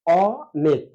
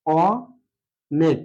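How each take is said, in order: First: অনেক said as ওনেক, rounded first vowel; spoken অনেক. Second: অনেক stretched very slowly, vowel held; slow demo অনেক. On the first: Teacher demonstrating everyday অনেক. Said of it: "এভাবে উচ্চারণ করি". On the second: Teacher to students, slow vowel demo of অনেক. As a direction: draw out অনেক to show the vowel. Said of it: "অর্থাৎ". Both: Shown as a demonstration.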